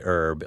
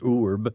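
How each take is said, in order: First: The name is said like the word herb. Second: The name is said like urb. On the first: This is the usual American way of saying it. The speaker calls it wrong. "We say Erb like it's H-E-R-B" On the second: This is probably the original way of saying it. The speaker calls it right. "It's probably Urb, U-R-B"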